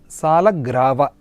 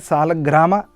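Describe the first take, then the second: First: The last syllable begins with a v sound. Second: The last syllable begins with an m sound. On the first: "The correct pronunciation of uh, this is Salagrava" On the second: "Some people say Salagrama"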